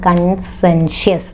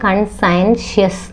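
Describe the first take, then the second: First: The second syllable sounds like 'sen'. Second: The second syllable sounds like 'sigh'. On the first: This is how the word is normally pronounced. "കൺസെൻഷ്യസ് എന്നാണ് ഇത് വായിക്കുക" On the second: This reading helps to remember the spelling. "നമുക്ക് പറയാൻ എളുപ്പത്തിന് കൺസയൻഷ്യസ് എന്ന് വായിക്കാം"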